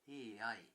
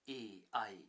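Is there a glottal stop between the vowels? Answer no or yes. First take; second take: no; yes. First: The vowels run together without a stop. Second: A glottal stop separates the vowels. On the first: The speaker calls it right. "vowels are pronounced together without the glottal stop between them" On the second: The speaker calls it wrong. "So it is not"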